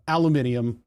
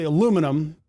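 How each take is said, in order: First: "aluminium" as al-yoo-MIN-ee-um; British five-syllable "aluminium"; British variant. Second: "aluminum" as a-LOO-mi-num; American "aluminum", no second i; American pronunciation. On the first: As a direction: give "aluminium" its extra i, stressed on MIN. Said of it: "Those are all the same thing". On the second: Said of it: "we say aluminum". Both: Shown as a demonstration.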